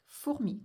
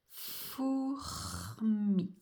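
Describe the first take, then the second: First: Said in the usual way. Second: FOURMI stretched, every sound held long. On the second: Shown as a demonstration. Teacher showing it's written as heard, slowly stretched FOURMI. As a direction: draw out F, OU, R and M in FOURMI. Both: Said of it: "comme ça s'entend".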